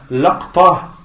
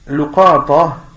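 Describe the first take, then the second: First: Short a after l, no vowel after q. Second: Short u after l, short a after q. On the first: "le deuxième" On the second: "le premier qui est luqata"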